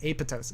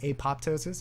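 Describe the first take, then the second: First: The second P sound is silent. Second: The second P sound is pronounced. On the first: The speaker calls it right. "You're not supposed to pronounce that P. It's apoptosis" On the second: The speaker calls it wrong. "You might have heard of apoptosis"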